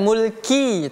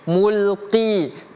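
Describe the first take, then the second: First: The consonant is a plain front k sound. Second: The consonant is a deep throat q sound. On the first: The speaker calls it wrong. "bukan mulki" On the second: The speaker calls it right. "tapi mulqi"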